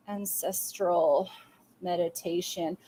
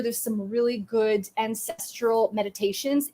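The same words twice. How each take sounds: First: "Ancestral meditation" said very slowly and softly, each syllable drawn out; quiet, careful dictation of "Ancestral meditation". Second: Said in the usual way. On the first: Shown as a demonstration. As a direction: spell it out slowly as if writing it down. Spelling out a note.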